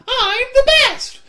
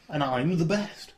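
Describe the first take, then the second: First: It is said in a croaky toad voice. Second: It is said in a normal speaking voice. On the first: The speaker calls it right. "You always have to say that in a toad voice" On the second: The speaker calls it wrong. "Sorry, I need to redo that"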